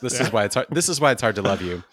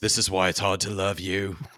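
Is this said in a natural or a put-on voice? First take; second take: natural; put-on. First: Said in the speaker's own natural voice. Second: Said in a put-on imitation character voice. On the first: "I didn't do the voice" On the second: "It's Roy Kent from Ted Lasso"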